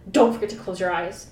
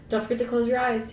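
First: Firm, louder warning with "Don't" stressed; a stern protector's caution; severe warning. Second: Said in the usual way. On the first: A narrator's reading. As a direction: warn her sternly, no nonsense. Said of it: "he warned severely". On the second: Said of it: "he warned".

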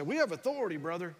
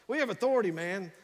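First: Lightly voiced Rex, authoritative, falling off on brother; a hint of Rex speaking with authority; imitating Rex. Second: A hint of Rex, pressing the point harder; imitating Rex, more emphatic. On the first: Pastor imitates Rex in the hospital, lightly voiced with authority. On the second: Pastor imitates Rex repeating himself, a touch more forceful. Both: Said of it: "that's how he talks".

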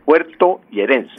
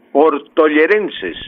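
First: Puertollerenses said carefully with puer-to at the start; puertollerenses, slow and deliberate, with puerto- restored; corrected form. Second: Portollerenses said with porto- at the start; portollerenses, slowly, with the wrong porto- prefix; mistaken form. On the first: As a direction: fix it: puertollerenses, stressing the puer- diphthong. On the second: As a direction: slip into portollerenses, por-to, not puerto. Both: Real, not acted. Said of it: "perdón, puertollerenses".

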